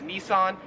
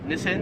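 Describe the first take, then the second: First: Nissan is said the American way. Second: Nissan is said the Australian way. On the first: "we would pronounce this in America" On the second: "here in Australia, it is pronounced"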